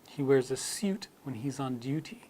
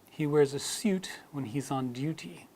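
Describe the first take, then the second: First: It is said in a British accent. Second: It is said in a British accent.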